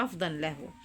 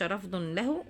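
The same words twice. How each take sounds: First: رفضا له read as "rafdan lahu"; corrected case ending. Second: رفض له read as "rafdun lahu"; slow "rafdun" in رفض له; wrong case ending. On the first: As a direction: sound an accusative "-an" ending on رفضا. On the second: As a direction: sound a nominative "-un" ending on رفض. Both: Shown as a demonstration. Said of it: "هل تقول له رفضا له".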